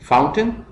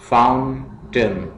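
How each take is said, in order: First: Said in the usual way. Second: fountain slowly as faun, pause, टेन; split into syllables. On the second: Shown as a demonstration. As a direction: break fountain into two separate beats. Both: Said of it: "syllables में divide करना है".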